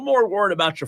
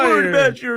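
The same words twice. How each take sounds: First: It is said in the speaker's natural voice. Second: It is said in an imitated put-on voice.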